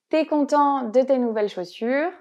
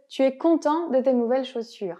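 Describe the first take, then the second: First: The vowel of tu is dropped: t'es. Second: Tu and es are both said fully.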